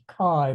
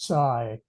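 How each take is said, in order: First: The name begins with a K sound. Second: The name begins with a Ts sound. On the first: The speaker calls it wrong. "we would pronounce it Kai" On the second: The speaker calls it right. "in Chinese it's it should be pronounced Tsai"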